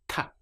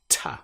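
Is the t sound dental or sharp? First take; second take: dental; sharp. First: The t is soft, tongue behind teeth apart. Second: The t is sharp, with the teeth together. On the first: This is how it sounds in Europe. "with the tongue up behind the front teeth and the teeth apart" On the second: This is how it sounds in British English. "teeth together. And then we have this very sharp t sound"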